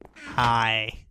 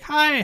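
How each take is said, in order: First: The greeting sounds quiet and calm. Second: The greeting sounds eager and excited. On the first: The speaker is humble and reserved. "I was just very calm" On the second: The speaker is overeager to meet someone. "I didn't really be like"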